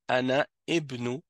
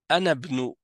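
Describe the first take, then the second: First: The initial vowel of ibnu is pronounced separately. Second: The initial vowel of ibnu is dropped and linked. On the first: The speaker calls it wrong. "tu as dit Ana ibnu, et ça, c'est incorrect" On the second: The speaker calls it right. "la façon correcte de le dire"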